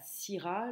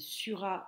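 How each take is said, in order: First: The first vowel is an 'i' sound. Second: The first vowel is a rounded 'u' sound. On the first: The speaker calls it wrong. "et non I en fait comme en français moderne" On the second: The speaker calls it right. "Le Y en latin se prononce U"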